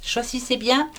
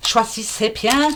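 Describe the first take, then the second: First: Said in the usual way. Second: Slow, drawn-out Alsatian accent; card reader putting on an Alsatian accent for viewers. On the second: Shown as a demonstration. Slow mock Alsatian accent. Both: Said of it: "Je parle en alsacien".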